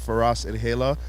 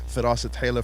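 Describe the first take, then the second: First: The name is said in an anglicized way. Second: The name is said in its native way.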